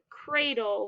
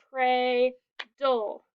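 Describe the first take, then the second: First: Said in the usual way. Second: "cradle" broken as cray, then dole; split into syllables. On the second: Shown as a demonstration. Teacher showing two syllables, word pulled apart. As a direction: say "cradle" in two beats with a gap between. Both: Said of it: "We have two syllables".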